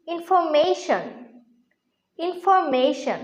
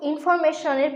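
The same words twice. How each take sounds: First: ইনফরমেশন slowly as 'in-fo-MEI-shn'; corrected pronunciation. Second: ইনফরমেশনের run together as 'infor-me-shon'; common mispronunciation. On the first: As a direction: draw out 'mei' in ইনফরমেশন. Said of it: "এর সঠিক উচ্চারণ হচ্ছে". (ইনফরমেশন-এর শুদ্ধ উচ্চারণ, 'ইনফো-মেইশন') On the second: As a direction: say ইনফরমেশনের casually with a short 'me'. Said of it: "প্রোনাউন্সিয়েশনটা কিন্তু ভুল". (ইনফরমেশনের প্রচলিত ভুল উচ্চারণ, 'ইনফরমেশন') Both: Shown as a demonstration.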